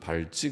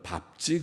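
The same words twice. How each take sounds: First: It is read in a regional dialect pronunciation. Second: It is read in the standard pronunciation. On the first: "경상도가 그렇게 읽는지 저도 그렇게 좀 밟지 그렇게 읽기도 하는데" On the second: "우리 그 표준말은 밟지 그렇게 읽습니다"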